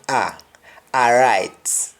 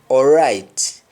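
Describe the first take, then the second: First: It is said in a Jamaican accent. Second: It is said in an English accent.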